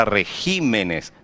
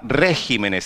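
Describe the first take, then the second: First: Regímenes stressed on the second syllable, re-GÍ-me-nes; shifted stress. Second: Regímenes wrongly stressed on the first syllable, RÉ-gi-me-nes. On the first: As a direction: move the stress in regímenes onto GÍ, drawn out slowly. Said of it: "muda a sílaba tônica". (regímenes com a tônica certa, no GÍ) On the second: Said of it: "muda a sílaba tônica. Não se fala". (regímenes com a tônica errada, no RÉ) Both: Shown as a demonstration.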